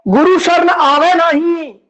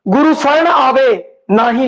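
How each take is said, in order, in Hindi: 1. विराम 'na hi' के ठीक बाद आता है। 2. विराम 'aave' के ठीक बाद आता है। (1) "गुरु की शरण च आंदा ही नहीं, लागे दुख पीड़" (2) "जे गुरु की शरण आ गए ना ही लागे दुख पीड़"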